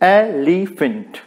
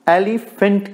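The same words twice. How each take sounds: First: "elephant" split into ए, लि, फेंट with first stressed; syllable by syllable. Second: Said in the usual way. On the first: Shown as a demonstration. Teacher showing a dactylic word, "elephant" syllable by syllable. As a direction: break "elephant" into three separate beats, leaning on ए. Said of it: "first stressed". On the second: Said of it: "और ऐसा ही".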